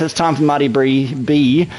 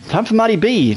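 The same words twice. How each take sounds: First: Stumbling over Marty B, tongue-tied. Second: Said in the usual way. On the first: Real, not acted. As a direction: trip over the name Marty B and repeat the B. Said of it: "Time for Marty B to untie his tongue". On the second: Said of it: "to untie his tongue".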